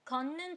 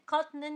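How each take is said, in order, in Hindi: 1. t की जगह दोहरी n की आवाज़ आती है। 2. t की आवाज़ n से पहले आती है। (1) "आप उसे पढ़ोगे घन्नन छुंगिएयो" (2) "आप उसे खतनन नहीं पढ़ोगे"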